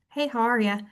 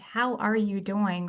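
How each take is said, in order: First: It sounds automatic and on autopilot. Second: It sounds sincere and genuinely interested.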